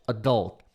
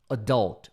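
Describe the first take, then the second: No difference in how they are said.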